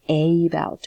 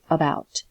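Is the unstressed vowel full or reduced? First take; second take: full; reduced. First: The first vowel is a full vowel. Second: The first vowel is reduced to uh. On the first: The speaker calls it wrong. "We do not say about" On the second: The speaker calls it right. "We just say about"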